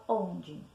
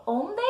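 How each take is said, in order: First: "onde" ending in an I sound, on-dji; everyday pronunciation. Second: "onde" ending in a full E, on-dê; spelling pronunciation. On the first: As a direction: say "onde" with soft DJI at the end. ("onde" como se fala, com som de I: on-dji) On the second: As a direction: say "onde" as written, with a hard D and clear E. ("onde" como se escreve, com E final: on-dê) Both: Shown as a demonstration. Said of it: "Como é que eu pronuncio onde?".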